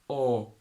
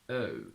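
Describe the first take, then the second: First: The vowel starts with a rounded o sound. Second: The vowel starts with flat lips and a schwa. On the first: "In American, on the other hand, instead of the schwa uh, they go oh" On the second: "In British English, we start with flat lips and a schwa"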